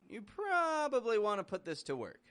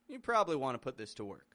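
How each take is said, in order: First: 'Probably' is said with all three syllables. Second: 'Probably' is said with its middle syllable dropped. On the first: The speaker is unsure whether it applies. "maybe you do, maybe you don't" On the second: The speaker is confident that it applies. "Dropping the syllable from the middle sounds more confident"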